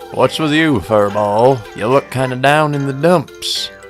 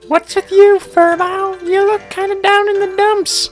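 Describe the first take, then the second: First: The voice is lower pitched. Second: The voice is higher pitched.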